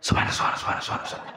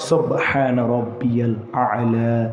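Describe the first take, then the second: First: The words are rushed together into a hissing mumble. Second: Every word is pronounced clearly and fully. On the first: The speaker calls it wrong. "কিন্তু কি শোনা যায়?" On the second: The speaker calls it right. "স্পষ্ট করে বলতে হবে"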